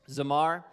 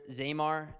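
First: Zamar with a short, unstressed "zuh" first; Zamar, light first syllable, then MAR; speaker's own pronunciation. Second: Zamar with a long "ay", as "ZAY-mar"; colleague's pronunciation. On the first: Shown as a demonstration. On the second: Retold or imitated. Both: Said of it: "or as Matt said earlier".

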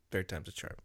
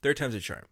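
First: Much softer, pulled back. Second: Said in the usual way. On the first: Shown as a demonstration. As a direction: say it quietly, away from mic. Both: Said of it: "so that way I'll be softer this time".

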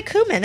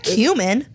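First: "cumin" said "KOO-min", no y sound; pronounced "koo-min". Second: "cumin" said "KYOO-min", with a y sound; pronounced "kyoo-min". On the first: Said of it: "I say cumin". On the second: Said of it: "It's not cumin". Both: Shown as a demonstration.

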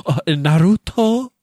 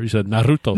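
First: Naruto with a rolled R, slow and rising. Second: Naruto with a rolled R. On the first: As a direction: roll the R in Naruto, drawn out. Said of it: "Why are you rolling the R's?". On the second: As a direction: roll the R in Naruto. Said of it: "You rolled your R". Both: Retold or imitated.

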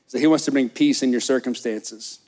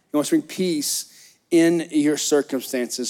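First: Said in the usual way. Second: Slow it down and drive each word home; slow emphatic repeat. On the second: Real, not acted. Pastor repeating the key point for the church, slow and emphatic. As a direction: repeat "He wants to bring peace in your circumstances" slowly, leaning on "to".

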